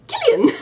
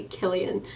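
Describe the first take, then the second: First: Sudden high, loud squeak of a name; excited squawk, octaves too high; voice shooting up. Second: Said in the usual way. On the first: Retold or imitated. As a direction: call out and let the voice leap way up. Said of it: "My voice, like, shot up several octaves". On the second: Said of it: "I tried to just say".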